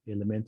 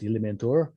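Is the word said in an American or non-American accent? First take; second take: non-American; American. First: It is said without the American pronunciation. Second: It is said with the American pronunciation. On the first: "even though it is spelled Elementa" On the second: "as Americans will pronounce"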